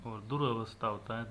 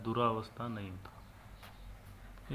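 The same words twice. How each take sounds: First: दुरावस्था said with a short a after र, durəvastha; correct form said. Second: दुरावस्था drawn out slowly with a long aa after र, duraavastha; wrong form shown. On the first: Teacher giving exam students the correct word, short vowel. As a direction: say दुरावस्था as dur-a-vastha with a quick short vowel. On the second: Teacher warning exam students against the wrong form, slow and drawn out. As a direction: stretch दुरावस्था slowly as dur-aa-vastha to show the mistake. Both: Shown as a demonstration.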